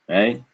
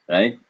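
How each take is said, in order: Both takes have the same delivery.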